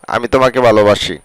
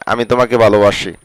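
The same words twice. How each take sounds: The two takes are said the same way.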